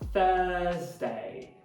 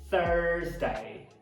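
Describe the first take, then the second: First: The first vowel is long with no r. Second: The first vowel has a strong r color. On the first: "No britânico... prolongar a vogal uh, e não vai falar esse fonema caipirado er" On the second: "uma vogal roticizada. Er, er"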